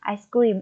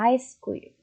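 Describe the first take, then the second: First: Both syllables carry equal, even stress. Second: The stress is on the first syllable. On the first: "Jika kalian lakukan pelafalan tanpa memberi tekanan" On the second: "penekanannya terdapat pada suku kata pertama, yaitu ice"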